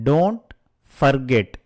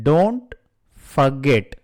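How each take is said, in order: The two takes are said the same way.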